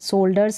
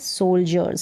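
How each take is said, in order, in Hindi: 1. बीच का व्यंजन सामान्य 'd' ध्वनि है। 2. बीच का व्यंजन 'j' ध्वनि है। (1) "सोल्डर्स नहीं है" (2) "ज का साउंड आएगा"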